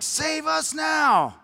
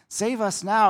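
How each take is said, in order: First: It is said forcefully and insistently. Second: It is said softly and reverently. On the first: It demands a political rescuer. The speaker calls it right. "It was more like, ... Almost this demanding" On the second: It is a humble act of worship. The speaker calls it wrong. "this nice, worshipful"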